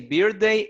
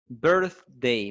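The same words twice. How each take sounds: First: The first syllable sounds like 'beer'. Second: The first syllable sounds like 'birth'. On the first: The speaker calls it wrong. "if you say birthday, is for beers" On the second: The speaker calls it right. "So this is birth"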